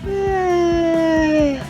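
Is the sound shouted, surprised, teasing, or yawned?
yawned. The sound is stretched out like a yawn. Someone is sleepy. "А це бегемот позіхає у зоопарку. Ось так"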